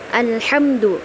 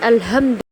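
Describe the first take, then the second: First: The h is a raspy sound from mid-throat. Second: The h is a light breathy sound from the glottis. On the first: The speaker calls it right. "yang tepat itu ha, ha kecil" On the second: The speaker calls it wrong.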